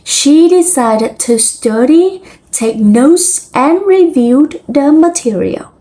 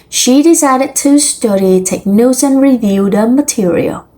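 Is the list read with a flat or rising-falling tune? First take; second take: rising-falling; flat. First: Pitch rises on list items, falls at the end. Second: The list is read in a flat, neutral tune. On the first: The speaker calls it right. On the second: The speaker calls it wrong.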